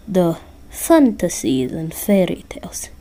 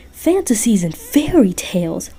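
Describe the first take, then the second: First: Put-on lightly accented Russian Santa, matter-of-fact; bad Russian accent. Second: Mild mock shout. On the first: Santa correcting Listener about Jack Frost, bad Russian accent. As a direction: explain it in a rough Russian accent. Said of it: "I'm terrible at doing a Russian accent". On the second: A narrator's reading. Jack calling from the ceiling to Santa, mild mock shout. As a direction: throw it back in mild outrage. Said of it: "shouted Jack".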